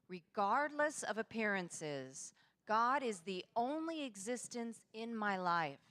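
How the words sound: It is said with a strong, energetic voice.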